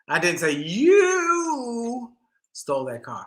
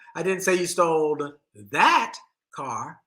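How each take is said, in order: First: The word "you" carries the stress. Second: The word "that" carries the stress.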